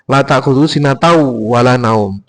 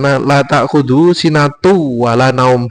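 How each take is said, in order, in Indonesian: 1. Kata sebelum wala berakhir dengan bunyi au. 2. Kata sebelum wala berakhir dengan bunyi u biasa. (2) "Jadi membaca"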